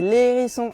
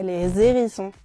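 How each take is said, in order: First: No z sound links les to the noun. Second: A z sound links les to the noun. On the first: The speaker calls it right. "Il n'y a pas de liaison non plus, on dit" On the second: The speaker calls it wrong. "et pas"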